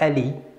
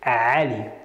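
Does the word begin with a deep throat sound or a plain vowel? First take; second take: plain vowel; deep throat. First: It begins with a plain, open vowel sound. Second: It begins with a deep, squeezed throat sound. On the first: The speaker calls it wrong. "not Ali" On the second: The speaker calls it right. "it's deeper than A"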